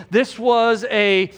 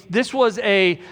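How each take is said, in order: Both takes have the same delivery.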